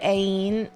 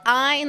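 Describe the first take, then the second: First: The name is said with a non-German pronunciation. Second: The name is said with a German pronunciation. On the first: The speaker calls it wrong. "I always called her Ain" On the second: The speaker calls it right. "it's like Ein, like German"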